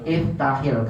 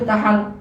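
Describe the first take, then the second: First: The word ends with a linking 'i' vowel. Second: The word ends with a linking 'a' vowel. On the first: The speaker calls it right. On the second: The speaker calls it wrong.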